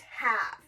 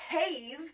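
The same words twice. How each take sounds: First: The vowel is short, not its letter name. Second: The vowel is long, saying its letter name. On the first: The speaker calls it right. "it's have" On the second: The speaker calls it wrong. "That E at the end helping that vowel say its name, but instead of have"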